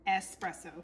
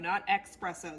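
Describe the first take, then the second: First: The word begins with an 'es' sound. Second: The word begins with an 'ex' sound. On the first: The speaker calls it right. "it's espresso" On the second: The speaker calls it wrong. "There's no X in it"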